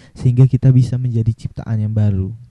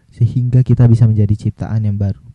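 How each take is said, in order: No difference in how they are said.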